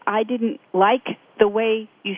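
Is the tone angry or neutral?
neutral. It is said in a calm, neutral tone. It simply lays out a personal perspective. The speaker calls it right. "I said it very neutrally"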